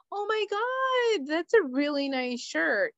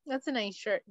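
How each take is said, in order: First: High, insincere compliment; put-on over-the-top admiration; fake gushing. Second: Subdued, offhand praise; insincere compliment. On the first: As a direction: gush with mock enthusiasm, starting way up. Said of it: "I'm not gonna be like". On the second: Acted. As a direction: toss it off quietly, without enthusiasm. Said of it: "just to be like".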